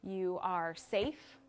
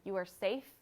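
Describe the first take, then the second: First: "You are safe" drawn out very slowly, each word soothing; slow reassuring mantra. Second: Said in the usual way. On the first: Shown as a demonstration. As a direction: say it slowly, like calming a frightened friend. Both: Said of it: "it could be anything from".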